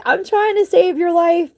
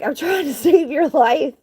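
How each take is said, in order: First: Higher, strained pleading; exasperated plea. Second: Higher, laughing through the words; laughing plea. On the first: Woman rescuing a biting kitten, strained plea. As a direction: plead hard, no laughter now. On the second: Woman rescuing a biting kitten, laughing plea. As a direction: laugh in exasperation as you plead. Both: Retold or imitated.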